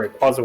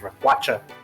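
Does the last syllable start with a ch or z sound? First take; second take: z; ch. First: The last syllable starts with a z sound. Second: The last syllable starts with a ch sound. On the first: The speaker calls it right. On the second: The speaker calls it wrong.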